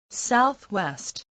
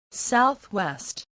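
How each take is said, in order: Both takes have the same delivery.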